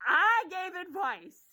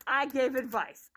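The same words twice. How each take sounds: First: "I gave advice." said again slowly and higher, each word weighted; "I gave advice." repeated slow and pointed; slow emphatic repeat. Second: Said in the usual way. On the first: Shown as a demonstration.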